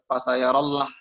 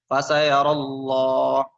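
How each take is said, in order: First: The L in Allah sounds light and thin. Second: The L in Allah sounds heavy and full. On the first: The speaker calls it wrong. "jangan dibaca tipis" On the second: The speaker calls it right. "tapi dibacanya"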